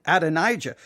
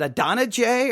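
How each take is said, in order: First: Adonijah as ad-uh-NIGH-juh; alternative pronunciation. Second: Adonijah as uh-DON-uh-jay; first pronunciation. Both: Shown as a demonstration. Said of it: "questioning my own pronunciation".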